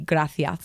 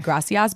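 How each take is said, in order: First: The middle consonant is a th sound. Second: The middle consonant is a plain s sound. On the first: This is how it is said in Spain. "but in Spain it'll be gracias" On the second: This is how it is said in Mexico. "in Mexico, like people will say gracias"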